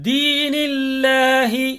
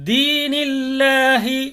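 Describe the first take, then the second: The two takes are said the same way.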